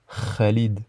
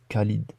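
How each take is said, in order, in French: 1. Il commence par un kh rauque et guttural. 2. Il commence par un son simple, non guttural. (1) "on la prononce kha, kha, comme dans le prénom Khalid" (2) "et pas Khalid"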